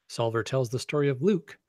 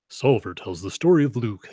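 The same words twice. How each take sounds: First: It is read in an ordinary speaking voice. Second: It is read in a dramatic movie-announcer voice. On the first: The speaker calls it wrong. "I'm not reading this in the right voice" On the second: The speaker calls it right. "have a good movie announcer voice"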